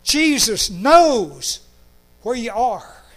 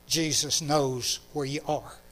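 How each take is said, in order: First: "Jesus knows" drawn out slowly, high and loud; slow proclamation. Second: Put-on gentle child's wording. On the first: Shown as a demonstration. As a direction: preach "Jesus knows where you are" with full force. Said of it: "To say it as clearly". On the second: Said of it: "as clearly as that little girl said it".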